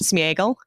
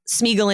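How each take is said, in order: First: The name is said with three syllables. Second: The name is said with two syllables. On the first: The speaker calls it right. "that vowel is actually supposed to get its own uh, syllable" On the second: The speaker calls it wrong. "So it's not Smeagol"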